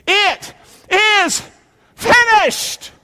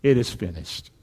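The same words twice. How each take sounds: First: Very high, emphatic proclamation; triumphant cry. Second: Low, soft echo of the verse; hushed reflection. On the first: Preacher leading congregation in Jesus' last words, high triumphant cry. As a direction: cry out each word far above your usual pitch. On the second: Preacher repeating Jesus' last words to himself, hushed. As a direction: let it sink down low and quiet. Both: A narrator's reading.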